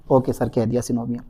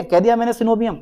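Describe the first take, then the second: First: Low, soft student acknowledgement; student's meek reply. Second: Said in the usual way. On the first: Acted. Student answering sir about synovium, low soft acknowledgement.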